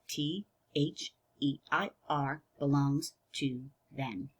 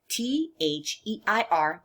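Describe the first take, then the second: First: The letters are spelled at a slower pace. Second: The letters are spelled at a normal pace.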